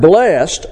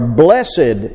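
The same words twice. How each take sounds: First: The word has its ordinary, everyday pronunciation. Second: The word has its poetic, old-style pronunciation.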